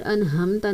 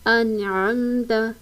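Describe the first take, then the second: First: The middle consonant is a plain h sound. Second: The middle consonant is a clear throaty ain. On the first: The speaker calls it wrong. "यहाँ पर अनहमता नहीं पढ़ना, हा की आवाज़ नहीं निकालनी" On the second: The speaker calls it right. "आइन का मखरज बिल्कुल वाज़ेह होना चाहिए"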